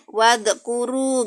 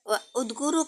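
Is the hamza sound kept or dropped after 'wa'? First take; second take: dropped; kept. First: The words run together, dropping the glottal stop. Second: The glottal stop before 'udkuru' is kept, separately. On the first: The speaker calls it right. "Kalau ada wawu, maka ini hamzah wasal kan? Wadkuru gitu" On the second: The speaker calls it wrong. "Jadi bukan"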